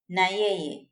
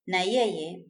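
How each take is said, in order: First: It is said as two full words. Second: It is said as two full words.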